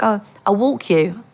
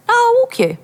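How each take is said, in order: First: Said in the usual way. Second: Very high, insistent offer; acted pushy insisting; imitated insistence. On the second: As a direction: brush off the refusal, pitched right up. Dealer insists after refusal.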